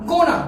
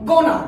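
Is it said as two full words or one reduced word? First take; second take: reduced word; reduced word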